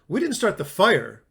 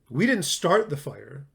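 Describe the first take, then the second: First: The stress is on "fire". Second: The stress is on "start".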